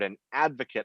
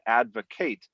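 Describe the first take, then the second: First: The stress is on the first syllable. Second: The stress is on the last syllable. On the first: It is a noun. "the accent on the first syllable makes a noun" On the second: It is a verb. "on the end it's a verb"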